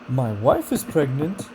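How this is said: The intonation rises, sounding excited. The speaker is thrilled about the news. "Enthusiasm, excitement, and disbelief, it has rising intonation"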